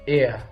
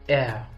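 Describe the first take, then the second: First: The word is said with an American pronunciation. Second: The word is said with a British pronunciation. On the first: "the American pronunciation of this word is ear" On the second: "the British pronunciation is air"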